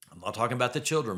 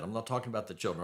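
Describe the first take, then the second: First: Put-on children given the weight, quick delivery; stress on CHILDREN. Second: Talking given the weight, quick and a touch softer; stress on TALKING. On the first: Brushing the kids aside for listeners, stress on children. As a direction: lean on children, brisk. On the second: Restating the point to listeners, stress on talking. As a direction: lean on talking, brisk. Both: Shown as a demonstration.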